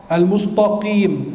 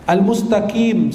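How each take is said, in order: First: Al-mustaqim drawn out as "al-mustoqim"; thick ta error. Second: Al-mustaqim drawn out as "al-mustakim"; kaf for qaf. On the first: Preacher showing a wrong reading, Al-mustaqim with thick ta. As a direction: darken the t of Al-mustaqim into a rounded "to". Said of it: "taknya jadi ta". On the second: Preacher showing another wrong reading, Al-mustaqim with kaf. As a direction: say Al-mustaqim with a light front k. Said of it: "Dibacanya qaf". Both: Shown as a demonstration.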